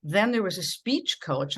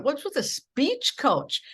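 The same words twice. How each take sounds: First: Said in the usual way. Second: Higher, slow, disbelieving "speech coach"; incredulous question. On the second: Retold or imitated. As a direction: ask it as if the idea is absurd. Retold incredulous reply to boss.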